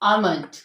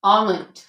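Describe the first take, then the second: First: The L sound is silent. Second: The same.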